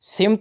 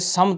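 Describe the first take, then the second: First: The first vowel is i. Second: The first vowel is a. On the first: The speaker calls it wrong. "नहीं होता" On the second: The speaker calls it right. "होता है"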